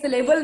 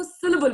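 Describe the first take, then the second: First: syllable as si-LAY-bul, middle syllable stressed; wrong syllable stress. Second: syllable as SIL-uh-bul, first syllable stressed; correct syllable stress. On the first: Coach shows student what to avoid, syllable stressed on the middle. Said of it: "नहीं, but हम इसको syllable बोलते हैं". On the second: Coach corrects the word for student, syllable stressed on the first syllable. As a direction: hit SIL, reduce the rest of syllable. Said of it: "हम इसको syllable बोलते हैं". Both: Shown as a demonstration.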